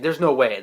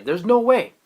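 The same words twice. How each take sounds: First: Said in the usual way. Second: Louder, higher cry of disbelief; stunned disbelief. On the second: Retold or imitated. Fan reacting to the Sage's reveal, louder stunned disbelief. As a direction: blurt it out, unable to believe it. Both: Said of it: "I was like".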